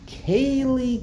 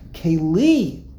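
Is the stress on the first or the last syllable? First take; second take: first; last. First: The stress is on the first syllable. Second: The stress is on the last syllable. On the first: The speaker calls it wrong. "We like to say 2 mil L's" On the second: The speaker calls it right. "the first one is Milra"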